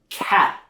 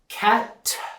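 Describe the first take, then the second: First: The final T is started but cut off. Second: The final T is fully and strongly released. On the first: "I'm going to start that T sound, but then stop it" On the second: "with the strong T sound at the end"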